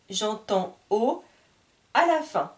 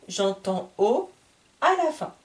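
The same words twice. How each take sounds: The two takes are said the same way.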